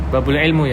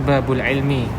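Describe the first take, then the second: First: The last word ends with an 'u' vowel. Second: The last word ends with an 'i' vowel. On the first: The speaker calls it wrong. "itu bisa dibenerin" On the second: The speaker calls it right. "Yang benar babul ilmi"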